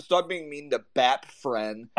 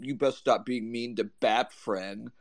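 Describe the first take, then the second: First: Put-on slow, hushed baby-talk quote; mock baby talk again. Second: Slow, soft lisping baby-talk imitation; mock baby talk. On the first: Repeating the rival's exact words verbatim, slow mock baby talk. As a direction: drag it out like a sulky toddler. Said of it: "Those are his words, like, verbatim". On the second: Quoting a rival's threat in the group chat, mock baby talk. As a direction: mimic a whiny online rival talking like a child, slowly and softly. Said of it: "He's like".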